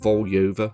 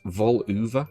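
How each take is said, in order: First: The middle syllable has a 'yo' sound. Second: The middle syllable has an 'oo' sound. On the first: "or at least that's how I would pronounce it phonetically" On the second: "the letter Y is spoken as an oo sound"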